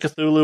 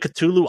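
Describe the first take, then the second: First: The name is said the speaker's usual, familiar way. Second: The name is said nearer its supposed original sound. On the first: The speaker calls it wrong. "I pronounce it Cthulhu, because that's how I've always pronounced it" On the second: The speaker calls it right. "it's closer to Cthulhu"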